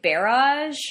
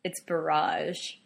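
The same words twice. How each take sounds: First: Barrage as "BARE-ahzh", first syllable stressed; mistaken pronunciation. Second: Barrage as "buh-RAHZH", stress on the second syllable, slow and lower; correcting pronunciation. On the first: Shown as a demonstration. Confessing how they used to say it, barrage stressed up front. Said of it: "I had been pronouncing it". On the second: Retold or imitated. Jeremy correcting the speaker, barrage stressed at the end. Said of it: "And Jeremy was like".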